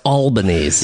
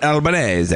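First: "Albanese" said the Americanized way; everyday pronunciation of Albanese. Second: "Albanese" with Italian vowels, final e sounded; native pronunciation of Albanese. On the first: Co-host correcting the guest's surname, Americanized "Albanese". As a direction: say "Albanese" as an English name, like Albany. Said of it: "it's pronounced Albanese". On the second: Guest giving his surname's real pronunciation, Italian-style "Albanese". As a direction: say "Albanese" the Italian way, all four syllables. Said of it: "It's really pronounced Albanese". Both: Shown as a demonstration.

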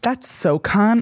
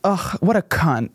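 First: Very drawn-out "so cunt", as praise; admiring emphasis. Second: Slow, disgusted "Ugh" before "what a cunt"; insulting emphasis. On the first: Guest showing how emphasis changes meaning, "so cunt" stretched as praise. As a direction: stretch "so cunt" slowly into a compliment. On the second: Guest showing how emphasis changes meaning, "cunt" as an insult. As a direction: say "what a cunt" as a drawn-out put-down. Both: Shown as a demonstration. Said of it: "if you put emphasis on certain words".

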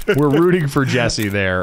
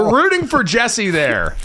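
First: Said in the usual way. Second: High cheer. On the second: Shown as a demonstration.

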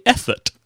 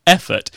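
First: EFFORT said as "ethert". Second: EFFORT with its usual F; normal F sound. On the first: Briton confesses overcompensating, EFFORT with a TH. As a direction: put a TH in place of the F in EFFORT. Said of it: "replace the F sound with". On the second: Briton shows the intended word, clear F in EFFORT. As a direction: say EFFORT with lip on teeth for the F. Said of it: "instead of saying". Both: Shown as a demonstration.

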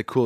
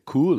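First: Said in the usual way. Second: Cool in a German accent. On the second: Shown as a demonstration. Joking about how Germans say cool, in a German accent. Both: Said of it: "Germans don't say cool, they say cool".

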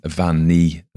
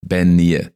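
First: "Van Nee" said the Irish way, starting with a V; Irish-style "Van Nee"; Irish pronunciation. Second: "Ben Nee" said the Scots way, starting with a B; corrected Scots "Ben Nee"; Scots pronunciation. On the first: Real, not acted. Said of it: "I probably said that with an Irish accent". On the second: Shown as a demonstration. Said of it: "Ben in Scots".

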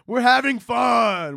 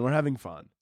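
First: High, drawn-out mock merriment; forced cheer. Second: Softer, muted insistence; deflated reassurance. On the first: Comedian insisting to listeners it's all fun, forced cheer. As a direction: sing out the fun a little too brightly. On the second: Pretend. Comedian insisting it's all fun, deflated. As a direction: let the cheer drain away into a low aside. Mock cheer sinks on repeat.

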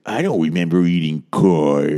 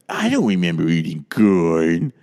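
First: Lightly voiced Carol Channing quote; playful nod to Carol Channing; Carol Channing impression. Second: Slow, drawn-out Carol Channing voice; slow, hammed-up Carol Channing impression; Carol Channing accent. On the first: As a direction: mimic Carol Channing, a touch of her voice. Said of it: "the last thing she would say is". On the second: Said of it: "Everyone's favorite way to do her accent".

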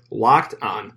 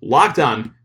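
First: Said in the usual way. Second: "Locked On" punched out, weight on "Locked"; emphatic LOCKED ON. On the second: Shown as a demonstration. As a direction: really hit "Locked On" as the promo code. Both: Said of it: "Really put emphasis on it".

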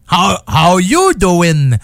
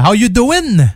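First: Slow, drawn-out catchphrase with a stretched YOU; Joey. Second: Lightly imitated catchphrase, higher pitched; quick first try at a sitcom catchphrase in French-accented English; Joey. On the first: Retold or imitated. Radio host retrying a sitcom catchphrase, slow hammed-up impression. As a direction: lean on YOU, imitating the sitcom flirt. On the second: Radio host greeting listeners with a sitcom line, light impression. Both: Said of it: "je reprenais la phrase célèbre de Joey".

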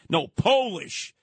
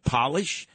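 First: "Polish" said as "POH-lish", long "o", the nationality, slow and firm; correcting the name. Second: "Polish?" said as "pah-lish", like shoe polish, asking back; "Polish?" with a short "o", as in polishing shoes, rising question; mishearing the name. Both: Retold or imitated.

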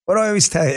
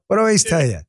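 First: Said in the usual way. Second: A thick Queens New York accent. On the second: Shown as a demonstration. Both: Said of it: "go back to my New York accent".

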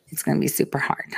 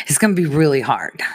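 First: Soft, fast whisper of super hard. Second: Said in the usual way. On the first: Shown as a demonstration. Host whispering to viewers about the hard task. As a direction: breathe it like a secret. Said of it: "repeated differently". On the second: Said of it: "repeated whispered".

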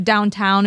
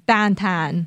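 First: Said in the usual way. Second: "downtown" said slowly as dahn-tahn; both vowels of "downtown" turned to A-H; Pittsburgh vowels. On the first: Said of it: "instead of downtown". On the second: Shown as a demonstration. Demonstrating Pittsburghese, "downtown" as dahn-tahn. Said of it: "it's like an A H sound".

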